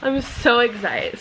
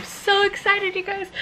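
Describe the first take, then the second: First: Said in the usual way. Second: Excited. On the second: Real, not acted. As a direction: gush it to the viewers.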